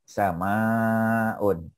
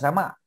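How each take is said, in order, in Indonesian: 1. Vokal di tengah dibaca panjang. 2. Vokal di tengah pendek. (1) "Samaun panjang" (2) "bukan sama"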